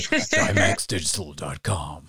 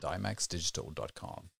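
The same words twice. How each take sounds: First: It is said in an American accent. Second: It is said in the speaker's usual non-American accent.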